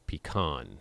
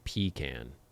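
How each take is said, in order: First: The stress is on the last syllable. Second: The stress is on the first syllable. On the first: "I emphasize the last syllable" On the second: "I don't say pecan"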